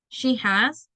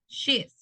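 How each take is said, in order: First: Both words are said fully and separately. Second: The two words merge into one short syllable.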